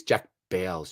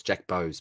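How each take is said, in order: First: Bowes said as "bales"; mistaken pronunciation. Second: Bowes said as "bohz", softer; corrected pronunciation. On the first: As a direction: say Bowes to rhyme with "sails". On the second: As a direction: say Bowes to rhyme with "rose". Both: Shown as a demonstration. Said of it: "Bowes, isn't it?".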